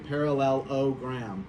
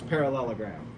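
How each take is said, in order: First: The word is said slowly and carefully. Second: The word is said quickly.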